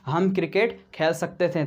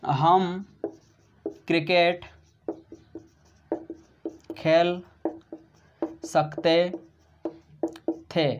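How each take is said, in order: First: Said in the usual way. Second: Word by word with long pauses; dictating each word apart; slow dictation. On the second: Shown as a demonstration. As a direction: give students time to write. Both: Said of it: "क्या बोला दोस्तों मैंने?".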